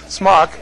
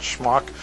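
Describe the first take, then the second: First: "smock" starting with a plain S; corrected word smock. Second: "schmuck" starting with a SH sound; wrong word schmuck. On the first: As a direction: say "smock" clearly, s not sh. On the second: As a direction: say "schmuck" with an opening sh, softer. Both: Shown as a demonstration. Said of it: "not schmuck".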